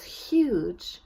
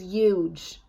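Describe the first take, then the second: First: The initial h sound is pronounced. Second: The initial h sound is dropped. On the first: "instead of saying" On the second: "drop their initial H sounds"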